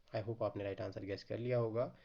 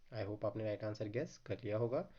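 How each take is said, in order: The two takes are said the same way.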